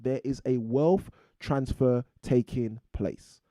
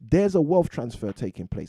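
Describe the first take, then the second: First: It is spoken more slowly. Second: It is spoken at a normal pace.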